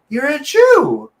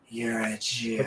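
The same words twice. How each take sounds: First: It is said warmly and affectionately. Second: It is said with contempt and hostility. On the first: The speaker is fond of the person. "so much love" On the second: The speaker despises the person. "so much hate"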